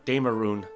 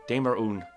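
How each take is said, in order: Both takes have the same delivery.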